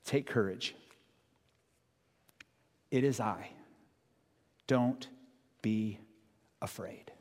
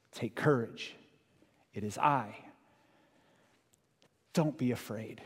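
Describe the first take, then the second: First: Soft, slow, fading to a whisper; hushed words of Jesus; tender reassurance. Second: Soft, slow reassurance, slightly steadier; calm them again; quiet reassuring repeat; gentle repeat. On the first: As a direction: gently comfort the frightened. Listen to the words that Jesus says. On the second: Repeated softly. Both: Acted.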